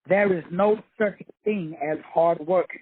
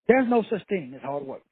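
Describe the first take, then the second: First: It is said slowly. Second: It is said at normal speed.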